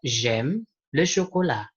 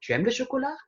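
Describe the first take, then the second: First: "J'aime le chocolat" slow, falling at the end; flat declarative "J'aime le chocolat"; statement intonation. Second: "Tu aimes le chocolat" rising high at the end; question intonation. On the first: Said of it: "kalimat afirmatif". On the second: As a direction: ask "Tu aimes le chocolat" with a big rise. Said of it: "Sama seperti". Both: Shown as a demonstration.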